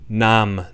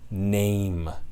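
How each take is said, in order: First: The vowel is a single steady open vowel. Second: The vowel glides, forming a diphthong. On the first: This is the older pronunciation of the word. "how name begins as nam" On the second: This is the modern pronunciation of the word. "the shift complete to name. The diphthongization becomes permanent"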